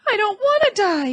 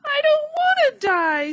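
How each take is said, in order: First: High, louder moaning wail; a piglet moaning in despair. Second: High, much louder shriek; a piglet screaming on the ground. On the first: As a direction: let it drag out as a whimpering plea. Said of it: "he moaned". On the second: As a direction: throw it out in full panic. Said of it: "screamed Wilbur". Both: A narrator's reading.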